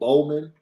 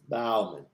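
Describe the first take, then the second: First: The first syllable rhymes with go. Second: The first syllable rhymes with cow. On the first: The speaker calls it wrong. "It's not Bo- Bowman" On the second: The speaker calls it right. "Make sure it's Bow. As in taking a bow"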